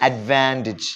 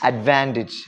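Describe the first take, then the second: Both takes have the same delivery.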